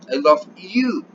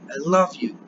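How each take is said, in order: First: The stress falls on the word you. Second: The stress falls on the word love. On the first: It is you, and not someone else, that I love. "Yo te amo a ti" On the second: I love you rather than hate you. "It's saying no, I don't hate you"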